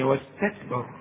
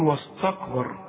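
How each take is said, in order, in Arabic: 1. الأصوات قبل الراء خفيفة، مرققة. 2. الأصوات قبل الراء ثقيلة، مفخمة. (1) "لا هي واستكبر" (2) "الراء مفخمة، خليتك تقول واستكبر"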